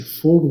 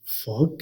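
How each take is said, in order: First: फोग with a closed o, the wrong way; wrong pronunciation. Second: फॉग with an open aw sound, slowly; correct pronunciation. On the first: Teacher contrasting the wrong version for students, closed o. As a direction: mispronounce फोग on purpose with a pure o. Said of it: "गलत है। इसे फोग नहीं". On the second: Teacher giving students the right version, open aw vowel. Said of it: "बल्कि फॉग कहते हैं". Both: Shown as a demonstration.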